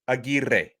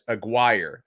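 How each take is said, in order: First: The R sound is strongly rolled. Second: The R sound is not rolled. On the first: This is the original Spanish pronunciation. "I'm going to really roll the R's for emphasis" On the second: This is how the coach said it. "I heard his coach refer to him as Aguirre"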